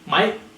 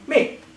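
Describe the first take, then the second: First: The word is said in an English accent. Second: The word is said in a Scottish accent. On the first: The speaker sounds like someone from England. "In England" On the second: The speaker sounds like someone from Scotland. "In Scotland"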